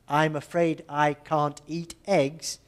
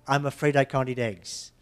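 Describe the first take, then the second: First: Each word is said separately with clear breaks. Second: Consonants slide into vowels with a tapped T.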